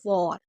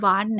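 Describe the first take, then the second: First: The vowel is a rounded 'aw' sound. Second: The vowel is an open 'ah' sound. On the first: The speaker calls it right. "W A R को वॉर पढ़ेंगे" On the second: The speaker calls it wrong. "वार नहीं पढ़ेंगे"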